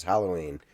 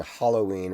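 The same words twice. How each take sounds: First: HALLOWEEN starting HAL, A as in cat; corrected pronunciation. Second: HALLOWEEN starting HOLLOW, with AH; his old pronunciation. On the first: Contrasting the correct way, short-A Halloween. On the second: Contrasting his own way, hollow-ween. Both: Shown as a demonstration. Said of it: "me saying Halloween versus Halloween".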